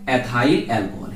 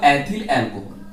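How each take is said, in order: First: Ethyl ends with a long 'ile' sound. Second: Ethyl ends with a short 'il' sound.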